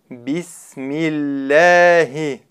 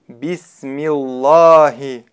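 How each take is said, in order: First: The L sound is light and thin. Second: The L sound is heavy and thick. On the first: The speaker calls it right. "Буква лям в слове Аллах произносится в данном случае мягко" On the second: The speaker calls it wrong. "Неверно произносить так"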